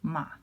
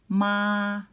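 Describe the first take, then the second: First: The syllable has a light, neutral tone. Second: The syllable has a high, level tone. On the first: "this is no markings, so it's a natural tone" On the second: "This is the flat tone"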